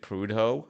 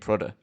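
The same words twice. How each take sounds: First: It is pronounced the way Americans would say it. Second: It is pronounced the way local Northumberland people say it. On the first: "the Americans would probably pronounce it Prudhoe" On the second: "Do you mean Prudhoe?"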